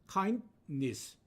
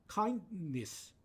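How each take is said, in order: Both takes have the same delivery.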